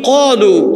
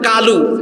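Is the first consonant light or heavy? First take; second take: heavy; light. First: The first consonant is a heavy, deep q sound. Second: The first consonant is a light k sound. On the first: The speaker calls it right. "আরবিতে সাতটা অক্ষর মোটা হয়... একটা অক্ষর হলো কফ" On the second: The speaker calls it wrong. "আবার বলতেছে কালু"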